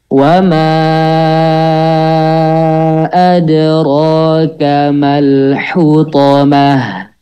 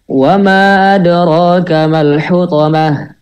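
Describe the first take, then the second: First: It is recited slowly, with long drawn-out vowels. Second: It is recited quickly, with shorter vowels. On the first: "Kita coba yang tahqiq dulu ya. Ana dulu coba" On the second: "kalau yang hadar"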